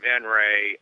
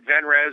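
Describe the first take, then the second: First: The name ends with an ay sound. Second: The name ends with a z sound. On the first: "or Venray" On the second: "you can pronounce it Venrez"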